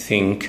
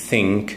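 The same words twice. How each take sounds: No difference in how they are said.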